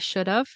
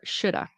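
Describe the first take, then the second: First: The V sound at the end is pronounced. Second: The V sound is dropped, ending in uh. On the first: "the V" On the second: "no V"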